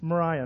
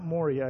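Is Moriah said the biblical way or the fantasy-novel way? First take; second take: biblical; fantasy-novel. First: It is said the way the biblical place is named. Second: It is said the way the fantasy mines are named. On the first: It names the biblical region. The speaker calls it right. "It's Moriah" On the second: It names the place in the fantasy story. The speaker calls it wrong. "not Moriah. I keep wanting to say Moriah. I got Lord of the Rings on my brain"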